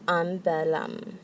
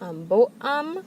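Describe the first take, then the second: First: The adjective links smoothly into the noun. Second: A glottal stop separates the adjective and noun. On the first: The speaker calls it right. "We want to make that nice liaison" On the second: The speaker calls it wrong. "That creates a glottal stop. We don't want to do that"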